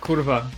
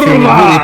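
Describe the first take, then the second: First: It is said flatly, without much feeling. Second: It is said with strong feeling.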